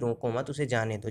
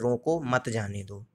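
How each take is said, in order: First: There is a pause after 'mat'. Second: There is a pause after 'roko'.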